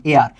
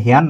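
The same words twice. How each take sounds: First: এয়ার with a silent h, opening on the vowel; এয়ার, starting straight on the vowel; correct pronunciation. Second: হেয়ার with a spoken h, the wrong way; হেয়ার, h sounded by mistake; wrong pronunciation. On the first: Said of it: "এটার উচ্চারণ কিন্তু হেয়ার না". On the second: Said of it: "না ভাই". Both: Shown as a demonstration.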